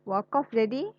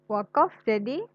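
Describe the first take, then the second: The two takes are said the same way.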